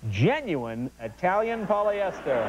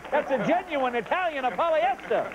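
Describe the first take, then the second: First: Said in the usual way. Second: Mock Italian.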